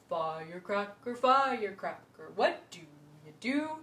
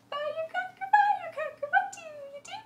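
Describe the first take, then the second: First: It is said in a low voice. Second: It is said in a high voice, fast.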